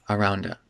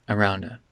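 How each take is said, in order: The two takes are said the same way.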